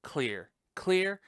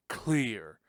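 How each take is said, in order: First: Higher, urgent call of clear, clear; doctor calling clear. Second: Said in the usual way. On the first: Retold or imitated. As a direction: shout clear, clear like a medic before the shock. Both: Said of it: "defibrillator scene".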